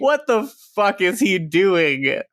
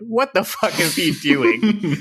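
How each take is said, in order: First: Slow, incredulous repeat, falling; baffled repeat; exasperated disbelief. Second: Drawn-out baffled question, rising; slow and incredulous, voice breaking into a laugh; baffled outburst; exasperated disbelief. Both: Real, not acted.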